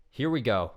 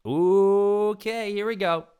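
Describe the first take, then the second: First: Said in the usual way. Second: Very high, loud hype-up; hyped. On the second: Real, not acted. Psyching himself up for the question, loud and high. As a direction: launch into it like a game show host.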